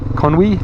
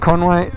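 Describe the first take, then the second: First: The last syllable sounds like 'wee'. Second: The last syllable sounds like 'way'. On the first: The speaker calls it right. "Conwy, not Conway" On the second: The speaker calls it wrong. "not Conway"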